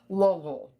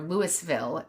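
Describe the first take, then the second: First: The name is said swallowed, deep in the throat. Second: The name is said without a swallowed throaty sound. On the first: The speaker calls it right. "you have to like put it in the back of your throat" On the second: The speaker calls it wrong. "or Louisville"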